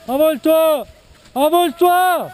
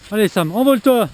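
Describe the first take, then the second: First: Calling out. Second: Said in the usual way. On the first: Real, not acted. Cheering a skier to take off.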